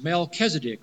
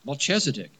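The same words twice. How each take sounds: First: The middle consonant is not a 'ch' sound. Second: The middle consonant is a 'ch' sound.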